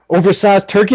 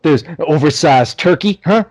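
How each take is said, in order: First: Repeated as a mild mock yell. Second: Said in the usual way. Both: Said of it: "and he goes".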